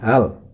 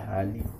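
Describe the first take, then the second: First: The word ends on a consonant, no vowel. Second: The word ends with the vowel i. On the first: The speaker calls it right. "harus dibaca hal" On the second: The speaker calls it wrong. "tidak boleh dibaca hali"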